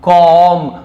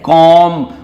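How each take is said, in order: No difference in how they are said.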